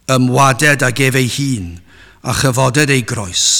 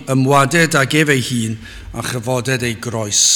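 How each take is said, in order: The two takes are said the same way.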